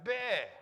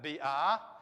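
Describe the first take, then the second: First: The vowel letters merge into one glided sound. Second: The two vowel letters are sounded separately. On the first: The speaker calls it right. "We pronounce it bear" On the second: The speaker calls it wrong. "We don't pronounce that B R"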